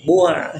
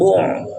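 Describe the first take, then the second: First: The ain sound is thin and light. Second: The ain sound is thick and overdone. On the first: The speaker calls it right. "Tipiskan ainnya" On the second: The speaker calls it wrong. "tidak boleh dibonyongkan ainnya. Jangan bu'a"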